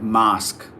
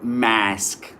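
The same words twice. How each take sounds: First: The word is said in a British accent. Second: The word is said in an American accent. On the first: "British English here, it goes like mask" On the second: "Americans will say it like mask"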